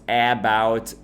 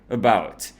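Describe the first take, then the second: First: The first vowel is a full, clear vowel. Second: The first vowel is a reduced schwa. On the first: The speaker calls it wrong. "we don't actually say about" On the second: The speaker calls it right. "If we're speaking normal casual English, we say about"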